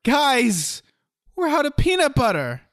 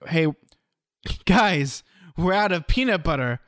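First: High-pitched, over-dramatic announcement to the group; dramatic alarm. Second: Plain, mildly raised heads-up to the group; casual announcement. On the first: Showing an improv partner how delivery changes a line, dramatic high-pitched alarm. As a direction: cry it out as if it were a crisis, much higher. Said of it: "you can do it differently". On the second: Showing an improv partner how delivery changes a line, casual announcement. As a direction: tell the guys casually, like minor news. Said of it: "here's an example". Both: Shown as a demonstration.

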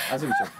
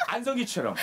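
First: Lower, like a TV ad star; deep smooth CF narrator voice; commercial voice. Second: Said in the usual way. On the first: Shown as a demonstration. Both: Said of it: "요거 씨에프처럼 먹어야 돼".

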